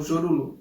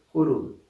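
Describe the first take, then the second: First: The name begins with a zh sound. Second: The name begins with an h sound. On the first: The speaker calls it wrong. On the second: The speaker calls it right.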